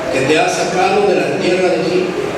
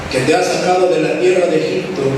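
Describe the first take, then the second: The two takes are said the same way.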